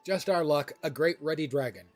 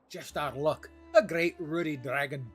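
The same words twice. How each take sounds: First: It is read in the speaker's ordinary accent. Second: It is read in a put-on Scottish accent.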